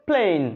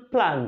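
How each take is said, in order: First: "প্লেন" with a long gliding "ay". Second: "প্ল্যান" with open "æ", no glide; short A. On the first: Teacher contrasting spellings, "প্লেন" with long A. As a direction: stretch the vowel of "প্লেন" to "playn". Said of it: "এখানে উচ্চারণ হলো". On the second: Teacher contrasting spellings, "প্ল্যান" with short A. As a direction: say "প্ল্যান" like English "plan". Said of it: "এটার উচ্চারণ". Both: Shown as a demonstration.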